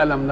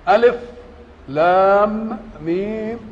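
First: The letters are joined into one word. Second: Each letter name is said separately with stops. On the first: It is a word meaning 'did not'. The speaker calls it wrong. "ليه ما قرأت لهاش ألم زي ألم نشرح" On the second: Each letter is read on its own. The speaker calls it right. "بعد كل حرف توقفه"

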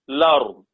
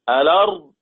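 First: The word starts directly with an L sound. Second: The word starts with a glottal stop and vowel.

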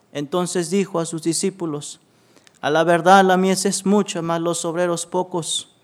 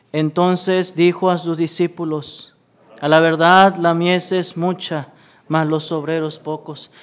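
No difference in how they are said.

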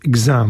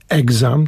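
First: The stress is on the second syllable. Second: The stress is on the first syllable. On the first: The speaker calls it right. "czyli druga, druga sylaba" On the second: The speaker calls it wrong. "Nie mówi się exam"

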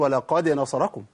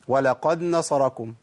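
First: The d sound is released with a clear bounce. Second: The d sound merges into the following n. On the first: The speaker calls it right. "لازم القلقلة" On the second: The speaker calls it wrong. "ممكن أعمل إدغام"

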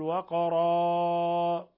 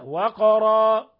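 First: The final vowel is stretched out very long. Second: The final vowel is held for two beats. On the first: The speaker calls it wrong. "واحذر من المبالغة في مد الألف" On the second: The speaker calls it right. "بس حركتين"

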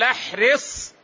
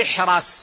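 First: The vowel after the r is i. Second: The vowel after the r is a. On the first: "بكسر الراء" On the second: "أو فتح الراء"

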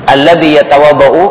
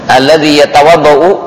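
Both takes have the same delivery.

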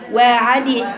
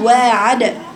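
First: The final d is followed by an i sound. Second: The final d is released crisply without a vowel. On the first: The speaker calls it wrong. "إياك تكسري وتقولي واعدي" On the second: The speaker calls it right. "وتقفل المخرج وتفتحيه بسرعة"

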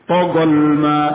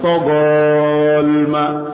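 First: The vowel is short, going straight on. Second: The vowel is drawn out long. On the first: The speaker calls it right. "Dua alif ini dianggap tidak ada. Togolma langsung" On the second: The speaker calls it wrong. "bukan togolma. Ini keliru"

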